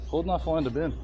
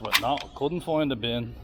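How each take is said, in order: First: "not" split off and stressed, full "Could not"; "Could not" said apart, weight on "not". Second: Said in the usual way. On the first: Real, not acted.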